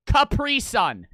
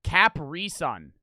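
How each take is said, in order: First: "Capri Sun" slow and louder, with "Capri" as kuh-PREE; right pronunciation. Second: "Capri Sun" slow, with "Capri" as KAP-ree and stress on the first syllable; wrong pronunciation. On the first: Proving to the commenters that his own way was right. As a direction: stress the second syllable of "Capri" and land it hard. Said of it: "That's how I fucking say it". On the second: Showing viewers the way they should never say the brand. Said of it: "That is not how you say it". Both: Shown as a demonstration.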